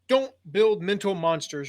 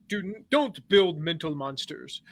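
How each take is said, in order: First: It is said in his plain reading voice. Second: It is said loudly in a put-on English accent.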